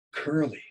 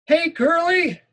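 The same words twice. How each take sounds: First: Said in the usual way. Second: High, loud raspy yell of "Curly"; Benny yelling raspy. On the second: Acted. School bully yells the nickname across the yard, raspy. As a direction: bellow "Curly" like a smoky bully. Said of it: "he keeps yelling".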